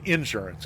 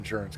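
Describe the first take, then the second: First: The stress is on the first syllable. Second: The stress is on the second syllable.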